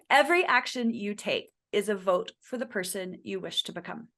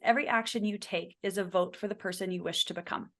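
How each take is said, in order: First: It is said slowly, letting it land. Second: It is said at a normal pace.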